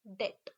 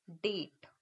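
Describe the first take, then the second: First: डेट with a long stretched a; long a in date. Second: डेट with a short clipped e; short e in date. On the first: Teacher showing the long a in डेट. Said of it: "और एक word हम लिख रहे हैं". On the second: Teacher showing the short e in डेट. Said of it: "अगर एक word हम लिख रहे हैं". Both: Shown as a demonstration.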